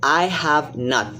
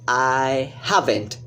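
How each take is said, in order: First: Have and not are said as separate words. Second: Have and not merge into one contracted word. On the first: "the long form is" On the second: "The short form"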